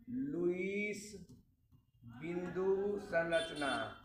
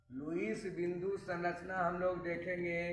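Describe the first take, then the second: First: Very slow, drawn-out naming of the term. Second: Said in the usual way. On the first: Shown as a demonstration. Teacher introducing a new term to students, very slow. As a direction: say the new term slowly and clearly. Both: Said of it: "उसको बोलते हैं Lewis संरचना".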